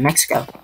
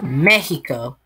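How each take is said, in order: First: The middle consonant is a ks sound. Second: The middle consonant is an h sound.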